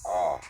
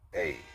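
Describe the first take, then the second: First: The letter sounds like 'ah' as in father. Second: The letter sounds like 'ay' as in day. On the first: The speaker calls it right. "is pronounced as Ah" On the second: The speaker calls it wrong. "is not pronounced A"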